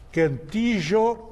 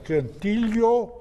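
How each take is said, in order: First: The name is said with the southern regional sound. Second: The name is said without the southern regional sound. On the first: "que são os do sul, uruguaios, argentinos e tal, que usam essa, essa pronúncia" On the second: "Ele pode ser cantilho"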